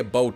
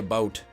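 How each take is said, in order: First: About is said with an exaggerated Canadian vowel. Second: About is said with an ordinary everyday vowel. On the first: This is not how the speaker normally talks. "I don't say a boat" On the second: This is how the speaker normally talks. "when I'm talking normally, I say a boat"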